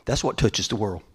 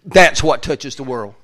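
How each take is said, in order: First: Said in the usual way. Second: Loud slow emphasis; preacher driving the point home; louder, slower. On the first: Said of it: "repeated louder". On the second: Shown as a demonstration. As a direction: proclaim it slow and strong. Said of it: "repeated louder, slow".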